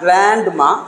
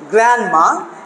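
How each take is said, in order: First: The D sound in the middle is pronounced. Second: The D sound in the middle is silent. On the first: The speaker calls it wrong. "So not grandma" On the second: The speaker calls it right. "So here this D is not pronounced"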